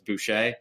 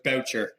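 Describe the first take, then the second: First: The name is said the French way, boo-shay. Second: The name rhymes with the word voucher. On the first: People assume the name is French Canadian. "people thinking that it's French Canadian" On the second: This is the family's own pronunciation. "so it's Boucher"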